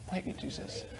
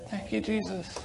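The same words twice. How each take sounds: First: Fainter hushed thanks. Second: Hushed thanks. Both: Real, not acted. Hushed praise after testimony.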